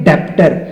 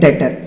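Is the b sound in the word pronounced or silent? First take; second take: pronounced; silent. First: The b sound is pronounced before the t. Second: The b sound is silent before the t. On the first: The speaker calls it wrong. "बहुत बच्चे इसको पढ़ेंगे डेप्टर, but ये डेप्टर नहीं है" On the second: The speaker calls it right. "यहां पर बी होगा साइलेंट, तो हम इसको पढ़ा करेंगे डेटर"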